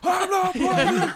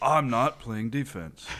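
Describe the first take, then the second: First: It is yelled loudly. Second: It is said at a normal volume.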